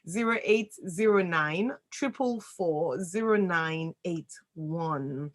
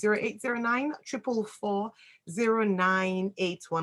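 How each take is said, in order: First: The number is read more slowly. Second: The number is read at normal speed.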